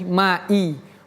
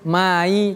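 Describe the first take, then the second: First: The glottal stop is pronounced clearly. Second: The glottal stop is blurred and unclear. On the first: The speaker calls it right. "i-nya harus kita baca dengan je, jelas, hamzah" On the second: The speaker calls it wrong. "Tidak boleh kita baca"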